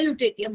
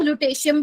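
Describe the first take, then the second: First: Lutetium said as "loo-TAY-tee-um"; lutetium with hard t. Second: Lutetium said as "loo-TAY-shee-um". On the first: Teacher giving students her own version, lutetium as "loo-TAY-tee-um". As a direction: keep a hard second t in lutetium, no "sh". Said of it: "मैं lutetium बोलती हूँ". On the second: Teacher showing students how some people say it, lutetium as "loo-TAY-shee-um". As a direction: soften the second t of lutetium into "sh". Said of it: "कुछ लोग lutetium भी बोलते हैं". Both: Shown as a demonstration.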